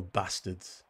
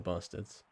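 First: "bastards" with a short, northern English a; northern-style "bastards", short first vowel; northern pronunciation. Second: Said in the usual way. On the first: Shown as a demonstration. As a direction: say "bastards" with the a of "cat". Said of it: "there's the two types of bastards".

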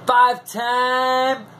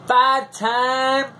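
No difference in how they are said.

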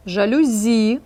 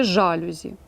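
First: "Жалюзі" stressed on final ЗІ; stress on last syllable. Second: "жалюзі" stressed on ЖА; stress on first syllable. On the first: Teacher offers first choice, stressing жалюЗІ. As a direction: draw out the ending: жалюЗІ. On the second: Teacher offers second, mistaken choice, stressing ЖАлюзі. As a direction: hit the start: ЖАлюзі. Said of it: "чи". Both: Shown as a demonstration.

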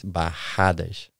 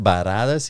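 First: Bajadas slowed, the RR a throaty H; double R pronunciation. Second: Baradas with a light tapped R; baradas, a quick tap on the R; single R spelling. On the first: Explaining to the host that two R's sound like an H. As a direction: bajadas with a breathy H for the RR. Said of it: "Two R's". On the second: Explaining to the host that one R sounds like baradas. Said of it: "baradas is one R". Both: Shown as a demonstration.

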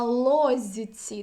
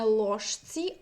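First: Лозіці drawn out slowly, soft зь before ці; zh becomes soft z. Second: Ложці said as written, with ж before ці; zh kept before tsi. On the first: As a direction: stretch it out, louder: лозіці with зь for ж. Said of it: "«зіці»". (повільно лозіці, зь замість ж) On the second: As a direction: keep the hushing ж in ложці. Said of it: "наприклад, не". (ложці з ж, як на письмі) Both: Shown as a demonstration.

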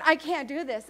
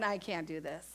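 First: Said in the usual way. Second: Much lower and softer, a defeated murmur; overwhelmed Mary. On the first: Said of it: "I can see her going". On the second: Retold or imitated. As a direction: let it sink out of her, overwhelmed. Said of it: "all of a sudden going".

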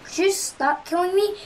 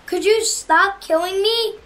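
First: Said in the usual way. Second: Louder, stress on you; "Could you stop killing me?" plus fort sur "you"; exasperated plea. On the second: Real, not acted.

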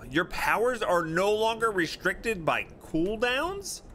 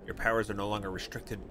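First: Surprised. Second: Said in the usual way. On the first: Real, not acted. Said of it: "rereads as question". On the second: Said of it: "rereads it".

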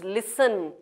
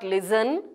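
First: Listen with a hissing s, "lissen"; correct pronunciation. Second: Listen with a buzzing z, "lizen"; wrong pronunciation. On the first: Teacher correcting the buzzing z, correctly pronounced. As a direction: keep the s in listen unvoiced. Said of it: "it is listen". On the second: Teacher showing the buzzing mistake, mispronounced. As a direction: put a z in the middle of listen. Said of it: "It is not listen". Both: Shown as a demonstration.

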